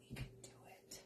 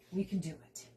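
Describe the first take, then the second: First: Very quiet whisper to self; hushed, voiceless self-encouragement. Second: Said in the usual way. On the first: Real, not acted. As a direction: whisper it like a private pep talk.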